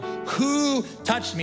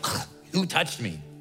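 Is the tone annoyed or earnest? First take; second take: earnest; annoyed. First: It sounds earnest and searching. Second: It sounds annoyed and irritated.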